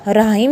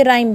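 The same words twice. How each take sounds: First: राइम with an H sounded after the R, "ra-him"; wrong pronunciation. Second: राइम as one syllable, H silent; correct pronunciation. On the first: Teacher showing students the mistake, sounded H. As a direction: mispronounce राइम as r-HIME. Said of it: "राइम नहीं बोलेंगे इसको". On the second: Teacher correcting students, silent H pronunciation. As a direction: say राइम with a plain R, no H. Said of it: "ये राइम बन गया". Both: Shown as a demonstration.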